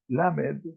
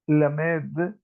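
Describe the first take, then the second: First: The stress falls in its usual place. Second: The stress moves to a different syllable. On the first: It names the letter of the alphabet. "cuando la pronuncio Lamed" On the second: It means to study and to teach. "cambio el sentido de la acentuación y digo Lamed"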